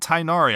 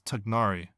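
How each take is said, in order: First: The first syllable sounds like 'tie', without g. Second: The first syllable sounds like 'tig', with g. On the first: The speaker calls it wrong. "it's not Tainari" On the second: The speaker calls it right. "proper pronunciation. It is Tignari"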